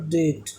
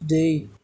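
First: The vowel is a short plain e. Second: The vowel is an ay diphthong. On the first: The speaker calls it wrong. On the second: The speaker calls it right.

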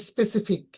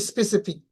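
The two takes are said the same way.

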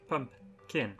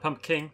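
First: The word ends with a 'kin' sound. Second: The word ends with a 'king' sound. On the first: The speaker calls it right. "pump kin. There we go" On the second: The speaker calls it wrong. "Not pump king"

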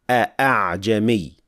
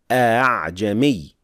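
First: The hamza is pronounced fully and clearly. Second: The hamza is softened, not fully pronounced. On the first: "does not apply tasheel and just pronounces full hamza" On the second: "Hafs applies tasheel and says a'jami"

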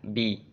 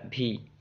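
First: The b is released without a puff of breath. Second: The b is released with a puff of breath. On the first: The speaker calls it right. "seharusnya bi" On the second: The speaker calls it wrong. "keluar nafas ketika mengucapkan huruf ba"

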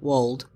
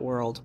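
First: The word is said without an r sound. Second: The word is said with an r sound. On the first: The speaker calls it right. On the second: The speaker calls it wrong. "not World"

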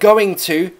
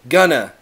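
First: It is said as two full words. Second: It is said as one reduced word. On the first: "going to can be contracted" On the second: "contracted to gonna"

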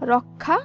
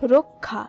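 First: The first vowel is an open 'aw' sound. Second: The first vowel is a rounded 'o' sound. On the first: The speaker calls it wrong. "এই হিসাবে রক্ষা হবে না" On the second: The speaker calls it right. "রক্ষা শব্দটিও উচ্চারণ হবে রক্ষা"

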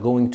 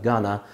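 First: Both words are said fully and separately. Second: The words are reduced and run together.

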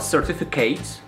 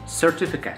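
First: The last syllable sounds like the name Kate. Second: The last syllable is short, like cat. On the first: The speaker calls it wrong. "not certificate. It's not Kate" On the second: The speaker calls it right. "It's almost like cat... Cat, it's short"

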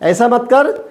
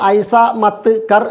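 First: The words are trimmed and run together. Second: Each word is said fully and separately. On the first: The speaker calls it right. "വാക്കുകൾ അരിക മൂലമൊക്കെ നമ്മൾ ചെത്തി ചേർത്ത് വെച്ച് കൊടുക്കണം" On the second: The speaker calls it wrong. "പറയുമ്പോൾ നമ്മൾ ഐസ മത്ത് കർ എന്ന് പറയരുത്"

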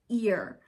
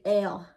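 First: The word is said with a standard vowel. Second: The word sounds almost like the letter L. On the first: "but it's ear" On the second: "We say L, like almost like the L"

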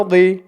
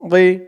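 The two takes are said the same way.

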